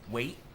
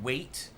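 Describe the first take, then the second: First: The final t has no audible release. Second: The final t is clearly released.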